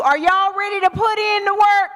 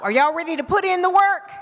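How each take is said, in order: First: "work" pushed louder, rallying the room; louder repeat. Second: Said in the usual way. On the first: Real, not acted. Speaker asking the crowd again after a "No", louder rally.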